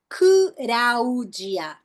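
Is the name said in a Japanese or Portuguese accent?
Japanese. It is said with Japanese sounds, without an L. "Como é que ficou meu nome em japonês? Não tem L"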